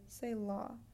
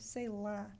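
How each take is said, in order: First: The final vowel is a rounded, tall 'aw'. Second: The final vowel is an open, wide 'ah'. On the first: The speaker calls it wrong. "if you open it taller, you're going to say law" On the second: The speaker calls it right. "open your mouth wider than you do taller"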